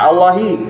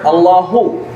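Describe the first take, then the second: First: The word ends in a short i vowel. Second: The word ends in a short u vowel.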